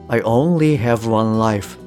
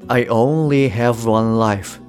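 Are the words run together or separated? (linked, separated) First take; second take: linked; linked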